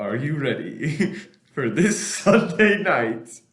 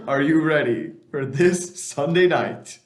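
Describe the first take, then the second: First: Slow, drawn out, laughing; prank call laughing. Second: Slow and loud, spelled out; slow repeat. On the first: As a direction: stretch it out while giggling. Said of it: "prank call question to Dennis". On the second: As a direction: repeat it slowly and louder. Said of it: "I said". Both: Acted.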